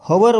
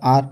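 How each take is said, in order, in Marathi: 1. याची सुरुवात उच्चारलेल्या h ने होते. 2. हा एकाच अक्षराचा शब्द आहे, त्यात h नाही. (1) "हवर जर म्हटलं तर तुमचं चुकलं, कारण एच जो आहे एच सायलेंट आहे" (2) "जसं ब्रिटिश किंवा अमेरिकन लोक म्हणतात आर"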